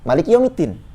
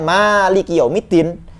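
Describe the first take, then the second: First: The vowel after the m is short. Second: The vowel after the m is long. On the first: The reading follows the written text exactly. "bacaannya pendek" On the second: An unwritten letter is assumed to be there. "kalau yang mengatakan mimnya panjang"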